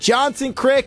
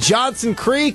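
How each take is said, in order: First: The second word has a short i vowel. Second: The second word has a long ee vowel. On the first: "people from Johnson Creek like to call it Johnson Crick" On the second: "how do you pronounce it?"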